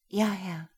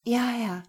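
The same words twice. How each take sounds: First: Put-on meek young woman's reply; timid yes. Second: Much higher, louder anxious yes; trembling. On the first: Lena answers her master meekly. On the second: Acted. Lena answers Gero, trembling and high. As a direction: answer with quivering lips. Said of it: "Ihre Lippen bebten".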